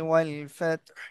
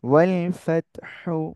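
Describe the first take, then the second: First: The last word ends on a bare h consonant. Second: The last word ends with a short u vowel. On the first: "এজন্য সাকিন দিয়ে পড়বো" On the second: "হা পেশ হু"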